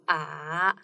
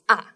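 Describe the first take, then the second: First: The pitch dips down and then rises. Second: The pitch starts high and falls sharply. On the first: "tone is a little bit twisted" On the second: "you start from the higher place and goes down"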